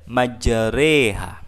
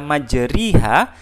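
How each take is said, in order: First: The vowel after majr- is a tilted e. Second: The vowel after majr- is a clear i. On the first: The speaker calls it right. "tapi kita baca majreha" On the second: The speaker calls it wrong. "tapi tidak kita baca kasrah, tidak kita majriha"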